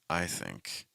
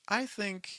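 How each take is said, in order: First: It is said with a low, heavy pitch. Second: It is said with a high, bright pitch. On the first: The speaker sounds heavy and serious. "if you lower the pitches on that" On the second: The speaker sounds warm and positive. "higher pitches again convey a little bit more positivity"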